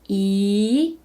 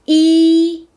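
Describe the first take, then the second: First: The pitch rises from middle to high. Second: The pitch stays high and level.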